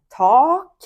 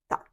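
First: The vowel is drawn out long. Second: The vowel is short and clipped. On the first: It means ceiling. The speaker calls it wrong. "Ми не кажемо так, тому що це в нас буде стеля" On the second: It means thanks. The speaker calls it right. "Ми кажемо просто швидко, коротко так"

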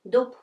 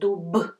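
First: The final consonant is a voiceless p sound. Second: The final consonant is a voiced b sound. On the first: The speaker calls it right. "we should pronounce like it's pair, voiceless pair" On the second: The speaker calls it wrong. "it may be hard to pronounce at the very end of the word, really soft like dub"

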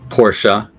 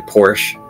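First: The word is said with two syllables. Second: The word is said with one syllable. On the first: The speaker calls it right. "Most of us know this is Porsche" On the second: The speaker calls it wrong. "other people will say Porsche, which is incorrect"

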